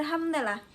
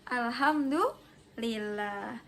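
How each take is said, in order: First: Said in the usual way. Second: Alhamdulillah stretched out slowly, each syllable drawn long; slow group recitation. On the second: Shown as a demonstration. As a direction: lead the class, drawing out Alhamdulillah. (Alhamdulillah diucapkan pelan dan panjang bersama kelas) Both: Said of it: "we say together".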